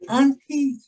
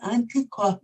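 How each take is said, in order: First: The word is pronounced the usual way. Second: The word is pronounced letter by letter as spelled. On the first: The speaker calls it right. "words like" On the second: The speaker calls it wrong. "because of the way it was spelled rather than the way it sounded"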